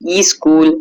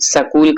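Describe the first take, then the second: First: A vowel is added before the initial s. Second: A vowel is inserted between s and k. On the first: "कर बैठते हैं" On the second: "कर बैठते हैं"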